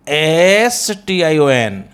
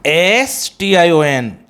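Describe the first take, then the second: No difference in how they are said.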